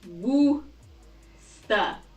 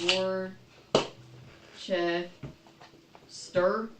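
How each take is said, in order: First: The R sounds are silent, in two syllables. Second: The R sounds are pronounced, in three syllables. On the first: The speaker calls it right. "you do not pronounce the R's" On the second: The speaker calls it wrong. "some people pronounce it like"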